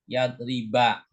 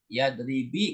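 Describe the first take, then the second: First: The final syllable ends in an 'a' vowel. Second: The final syllable ends in a non-'a' vowel. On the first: The speaker calls it right. "huruf terakhirnya kan huruf banyak fathah" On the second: The speaker calls it wrong. "nggak boleh karena ada an"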